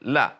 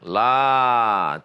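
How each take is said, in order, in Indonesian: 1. Vokalnya dibaca pendek. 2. Vokalnya dibaca panjang. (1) "Tapi di sini pendek la" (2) "kalau panjang la tidak"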